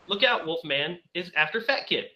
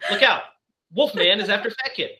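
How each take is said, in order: First: Look out runs into Wolfman, addressing him. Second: There is a clear break after look out.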